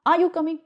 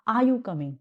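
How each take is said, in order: First: High, loud threatening question. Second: Said in the usual way. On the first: Shown as a demonstration. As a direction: demand it as a threat, pitched up. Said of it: "it means you are threatening". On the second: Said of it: "simple वे में".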